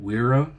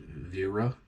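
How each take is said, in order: First: The name begins with a W sound. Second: The name begins with a V sound. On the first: "I have a Wira" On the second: "or some might pronounce it Vera. Uh, it's German"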